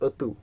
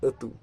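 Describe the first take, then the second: First: The first vowel is a rounded 'o' sound. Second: The same.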